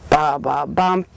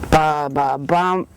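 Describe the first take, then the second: Both takes have the same delivery.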